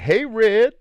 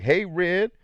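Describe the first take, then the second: First: Put-on high, loud call of an old lady. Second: High, loud mock old lady greeting; old lady calling out. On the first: Old woman calling to a young man, high and loud. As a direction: mimic her calling him over, much higher. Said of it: "And she's like". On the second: Retelling the old lady hailing him, high and loud. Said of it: "She's like".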